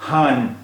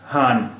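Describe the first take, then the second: First: The word ends with a full n consonant. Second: The word ends with a full n consonant.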